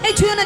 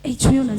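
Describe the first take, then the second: First: It is said in an angry, scolding tone. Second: It is said in a soft, affectionate tone. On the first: A stranger is being driven away. "অপরিচিত কেউ যদি আপনাকে স্পর্শ করে আপনি রেগে যাবেন না?" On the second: A loved one is being playfully pushed away. "রেগে বলবেন? ... তখন কিরকম বলবেন?"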